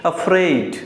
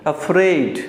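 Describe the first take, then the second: No difference in how they are said.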